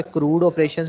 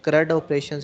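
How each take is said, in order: First: क्रूड with a long "oo", like "crude"; long-vowel pronunciation. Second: क्रड with a short "uh", rhyming with "mud"; short-vowel pronunciation. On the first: Teacher showing students one way some say CRUD, long-oo क्रूड. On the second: Teacher showing students the other way some say CRUD, short-uh क्रड. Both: Shown as a demonstration. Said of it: "उसकी pronunciation जो है वो different different है".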